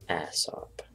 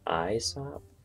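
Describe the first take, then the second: First: It is said with the Old English pronunciation. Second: It is said with the Latin pronunciation. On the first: "but in Old English, that would be Aesop" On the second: "That would be pronounced in in Latin. That would be pronounced Aesop"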